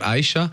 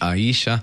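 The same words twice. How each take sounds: First: The stress is not on the i syllable. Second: The stress is on the i syllable. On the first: The speaker calls it wrong. "die Leute sagen immer Aisha" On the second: The speaker calls it right. "wirklich Betonung auf dem I, so Spanisch"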